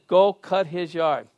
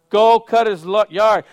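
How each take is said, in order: First: It is said at a normal, softer volume. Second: It is said loudly.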